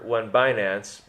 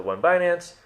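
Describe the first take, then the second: First: Said in the usual way. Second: High, eager mock demand; a hint of fans pestering, rising; impatient question. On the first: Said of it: "here's your". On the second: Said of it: "when you guys say the".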